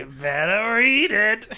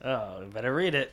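First: High, slow, teasing slyness; hammed-up sly insinuation; exaggerated sly. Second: Soft, sly nudge; quietly knowing hint. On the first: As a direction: draw it out slyly, pitched up. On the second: Acted. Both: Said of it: "You said that very slyly".

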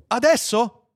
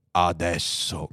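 First: High, anxious asking; eager question. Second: Low, calm confirmation; grave computer. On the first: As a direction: ask it high and impatiently. Anxious man asks the computer. (domanda acuta e impaziente) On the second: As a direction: confirm it deep and unhurried. (conferma grave e pacata) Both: Acted.

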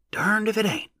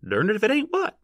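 First: High rustic wonder, falling at the end; subdued exclamation. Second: High rustic question, sharply rising on the end; demanding. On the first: Onlooker amazed at the find, subdued exclamation. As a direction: marvel in a high, restrained voice. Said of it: "a subdued voice exclaimed". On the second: Man at the rear who cannot see, demanding. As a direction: demand an answer, pitched high. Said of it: "demanded a voice from the rear". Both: A narrator's reading.

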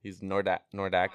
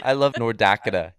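First: "Nordakota" said as one run-together word. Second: "Nordakota" said as one word, no th and no t, a bit louder. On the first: Teen repeating the guy's "Nordakota" for friends. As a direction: restart and slur North into "Nordakota". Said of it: "That's what that, this guy was doing". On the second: Teen mimicking a guy who said "Nordakota". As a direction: run North into Dakota as "Nordakota". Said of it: "He said Nordakota". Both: Retold or imitated.

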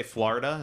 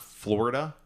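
First: "Florida" with ah in first syllable; New Jersey pronunciation. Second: "Florida" with or in first syllable; standard pronunciation. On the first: Showing co-host his Jersey accent, "Florida" said FLAR-i-da. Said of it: "I say Florida". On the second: Contrasting with his own version, "Florida" said FLOR-i-da. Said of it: "not Florida". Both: Shown as a demonstration.

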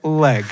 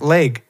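First: "leg" with an open, held EH vowel; leg with drawn-out EH. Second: "Leg" with a long AY vowel; leg said as LAYG. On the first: Showing the supposedly correct way, "leg" as LEHG. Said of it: "it's leg with a very, like, a long E". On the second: Showing a shared way of saying it, "Leg" as LAYG. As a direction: rhyme "Leg" with vague. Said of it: "you say it like I say it". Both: Shown as a demonstration.

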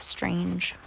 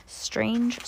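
First: Soft, playful whispered echo. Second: Higher, softly voiced musing; playful high remark. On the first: Pretend. Playful aside, repeated in whisper. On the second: Playful aside, voiced then whispered.

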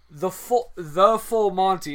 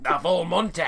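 First: "the full Monty" set apart slowly; air-quoted title. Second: Put-on Scottish lilt; Scottish accent. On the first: Shown as a demonstration. Explaining an unknown term to listeners, "the full Monty" in audible air quotes. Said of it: "I'm making air quotes". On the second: Repeating the character's boast to co-host, mock Scottish accent. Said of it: "made him Scottish there".

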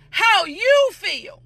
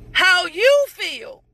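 First: How you feel drawn out slowly, stress on you; slow emphatic phrase. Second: How you feel said slowly and a bit louder, falling at the end; louder slow repeat. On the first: Preacher stressing how you feel to the congregation, slow and drawn out. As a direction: linger on each word of how you feel. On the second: Preacher repeating How you feel to the congregation, slower and louder. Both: Shown as a demonstration. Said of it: "And I'll say this".

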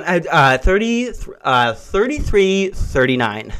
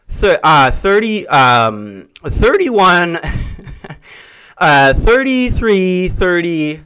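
First: Flustered stammer. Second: Nervous stumbling over numbers; flustered stammer. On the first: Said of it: "she's going". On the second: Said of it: "She went like this". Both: Retold or imitated.

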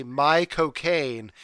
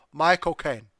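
First: Slow, drawn-out mock British vowels on "my cocaine"; British accent. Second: "My cocaine" in a clipped mock British accent. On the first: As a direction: stretch "my cocaine" like a Brit. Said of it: "in a British accent". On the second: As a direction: say "My cocaine" as Michael Caine would. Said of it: "so it comes out". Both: Shown as a demonstration.

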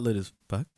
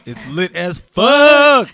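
First: Said in the usual way. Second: Fuck stretched with a long U, loud and slow; drawn-out fuck. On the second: Shown as a demonstration. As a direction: drag out the U in fuck, laughing. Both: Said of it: "It's a long, long U".

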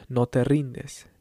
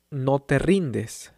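Both takes have the same delivery.

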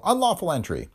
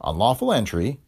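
First: High, triumphant, falling tune; pouncing accusation. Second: Unlawful entry said evenly, mild rising tune; bland agreement. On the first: District attorney pouncing on the detective's break-in, triumphant. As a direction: catch him out with Unlawful entry. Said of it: "Ha!" said Bagel". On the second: Detective calmly conceding the charge to the district attorney, bland. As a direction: shrug off the charge, unbothered. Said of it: "agreed Spooner blandly". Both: A narrator's reading.

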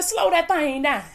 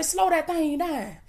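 First: Said in the usual way. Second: Softer and slowed, each word drawn out; hushed, slowed-down urging; quiet slow command. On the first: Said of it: "Y'all tell these folk". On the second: Shown as a demonstration. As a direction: ease it down gently like you're calming folks. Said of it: "Y'all tell these folk, baby, say".

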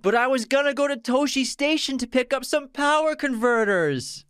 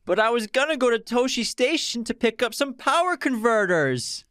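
First: High, whiny complaint, even higher; whiny Luke. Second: Put-on very high, whiny young man's complaint; whiny Luke. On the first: Acted. Repeating the quote for his co-host, whiny and high. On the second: Quiz host quoting a movie line, whiny Luke voice. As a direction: whine it like a sulky farm boy. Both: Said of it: "In a very whiny voice".

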